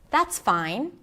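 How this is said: It sounds calm, genuine and kind. The speaker truly accepts the situation. "I was genuine. I was calm. I was kind"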